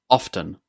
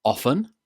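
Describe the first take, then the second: First: OFTEN with a clear T, "OFF-ten"; T pronounced in OFTEN. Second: OFTEN with no T, "OFF-en"; silent T in OFTEN. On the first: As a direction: sound the T slowly in often, "OFF-ten". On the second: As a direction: drop the T, say "OFF-en" for Often. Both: Shown as a demonstration. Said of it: "I pronounce this word as often with a t".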